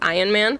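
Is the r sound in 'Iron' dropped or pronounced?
dropped. The r sound in 'Iron' is dropped, Boston style.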